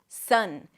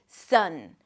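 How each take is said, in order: First: The vowel is a relaxed 'uh' sound. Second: The same.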